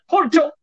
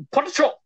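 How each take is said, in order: First: "Potato" jumps high again in the same mock accent. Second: "Potato" squeaked up high in a mock foreign accent. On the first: The guy at the vending machine, a high mock-accented "Potato". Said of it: "he just keeps saying it, like, the exact same way". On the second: Retelling the chips scene, a high mock-accented "Potato". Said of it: "he has a very strong accent".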